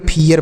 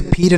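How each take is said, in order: First: फियर said as "phee-yer"; two syllables in फियर, ending in "yer"; correct two-syllable reading. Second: फिर said as "phir", one syllable; wrong one-syllable reading. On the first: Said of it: "फियर पढ़ेंगे". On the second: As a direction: leave out the "yer" in फिर. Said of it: "इसे फिर नहीं पढ़ेंगे". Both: Shown as a demonstration.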